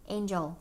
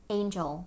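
No difference in how they are said.

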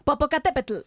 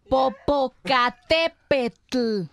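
First: The word is said fast. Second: The word is said slowly.

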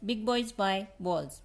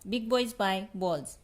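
The two takes are said the same way.

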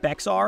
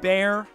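First: The word is said with a ks sound. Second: The word is said without a ks sound. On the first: The speaker calls it wrong. "People like to pronounce it BEXAR because of the way it's spelled" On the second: The speaker calls it right. "but it is BEXAR Arms"

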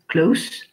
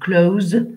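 First: The word ends with an s sound. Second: The word ends with a z sound. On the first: The speaker calls it wrong. "c'est le son s" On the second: The speaker calls it right. "c'est le son z"

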